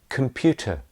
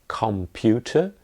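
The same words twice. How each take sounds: First: The word is said in reduced form. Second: The word is said in full form. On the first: The speaker calls it right. "it's com computer" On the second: The speaker calls it wrong. "You don't hear computer"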